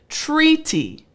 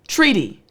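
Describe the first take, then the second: First: The word is said at a slow pace. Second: The word is said at a fast pace. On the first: "I'll say it slower this time" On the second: "One last time at a faster pace"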